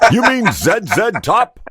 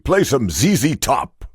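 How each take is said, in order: First: The letter Z is said as zed. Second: The letter Z is said as zee.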